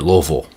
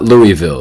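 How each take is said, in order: First: The name is slurred into mostly L sounds and V. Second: Each syllable of the name is said out clearly. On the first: The speaker calls it right. "It's basically a whole bunch of L's with a V in there somewhere" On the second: The speaker calls it wrong. "it is not Louisville. It's not pronounced that way"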